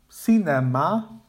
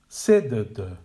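First: All three vowels are full with equal stress. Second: The first syllable is stressed, the others reduced. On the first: The speaker calls it wrong. "without one clearly defined stressed syllable and two schwa sounds" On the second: The speaker calls it right. "Effectively, the word is sedd"

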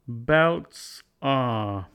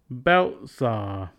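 First: The t in belts is a clear t. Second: The t in belts is a glottal stop.

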